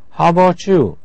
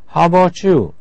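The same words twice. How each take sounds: First: The words are shortened and run together. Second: The same.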